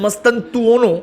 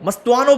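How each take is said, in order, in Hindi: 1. नाम 'tan' अक्षर के साथ बोला जाता है। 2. नाम 'tan' अक्षर के बिना बोला जाता है। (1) "वैसे उसकी प्रोनाउंसिएशन है" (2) "मस्तुआनो बोलता हूं"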